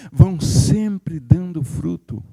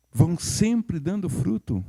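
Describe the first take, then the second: First: Slow, leaning on "sempre"; stress on sempre. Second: Slower and softer, "sempre" still leaned on; softer repeat, stress on sempre. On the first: Preacher repeating for the congregation, slow weight on "sempre". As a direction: drag out "vão sempre dando fruto" with "sempre" pressed. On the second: Preacher repeating the phrase gently, slow and soft. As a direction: quieter echo with "sempre" held. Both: Shown as a demonstration. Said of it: "Parece que eu tenho que dizer novamente essa palavra".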